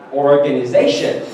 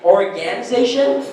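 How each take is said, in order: First: The stress is on the syllable 'za'. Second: The stress is not on the syllable 'za'. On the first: The speaker calls it right. "It should be organization" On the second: The speaker calls it wrong. "the way we've been pronouncing it, organization, that's actually wrong"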